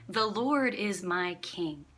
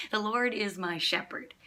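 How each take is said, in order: First: Slow, weighted emphasis on "The Lord"; stress on The Lord. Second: "shepherd" as the emphasised word; stress on shepherd. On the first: Preacher showing what David is saying, stress on "The Lord". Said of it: "David's emphasis would have been on the words". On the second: Preacher showing how we often think it, stress on "shepherd". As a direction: let the weight fall on "shepherd". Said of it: "our emphasis is on shepherd". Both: Shown as a demonstration.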